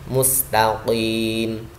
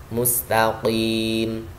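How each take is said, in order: Both takes have the same delivery.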